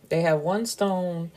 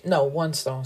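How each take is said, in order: First: "one" gently leaned on in "They have one stone"; stress on one. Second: Said in the usual way. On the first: Shown as a demonstration. Restating the corrected detail to viewers, "one" lightly stressed. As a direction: land lightly on "one" to set the count straight.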